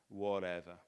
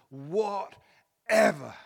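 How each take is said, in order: First: It is said cynically and indifferently, like Pilate. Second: It is said with abandoned, trusting surrender, like Mary.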